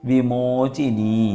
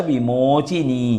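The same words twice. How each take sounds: Both takes have the same delivery.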